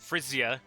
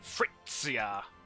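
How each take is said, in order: First: The middle consonant is a buzzing sound. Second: The middle consonant sounds German-like, not buzzing. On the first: "Is it the buzzing one like a bee? Buzz" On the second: "what I think of as more like German?"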